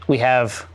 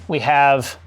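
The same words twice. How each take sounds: The two takes are said the same way.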